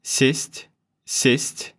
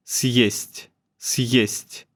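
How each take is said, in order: First: Said in the usual way. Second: "съесть" with a brief stop before "есть"; "съесть" with the syllables clearly separated; hard sign break. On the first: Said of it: "Listen closely now". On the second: Shown as a demonstration. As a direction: split "съесть" with a tiny pause. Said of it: "brief stop in there".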